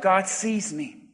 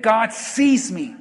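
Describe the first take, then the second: First: Low, soft and slow; said to oneself. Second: Firm, slow conviction on "sees"; said with belief. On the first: Preacher leading the congregation in private affirmation, quietly to oneself. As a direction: say it softly, as if only to yourself. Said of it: "Now say it to yourself". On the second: Preacher urging the congregation to believe, slow and convinced. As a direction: say "sees" slowly, like you truly believe it. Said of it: "Say it like you believe it". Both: Shown as a demonstration.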